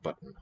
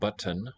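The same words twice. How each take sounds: First: The T runs straight into a syllabic nasal. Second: The T is released before a full vowel. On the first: The speaker calls it right. "I say button" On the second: The speaker calls it wrong. "to have a T that's released. Button is not how I say the word"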